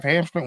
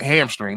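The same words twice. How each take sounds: First: Hamstring? rising, unsure guess; hamstring? asked with an uncertain lift; unsure question. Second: Hamstring. falling, settled and sure; hamstring. stated firmly with a falling end; sure answer. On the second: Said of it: "That's what it is". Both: Real, not acted.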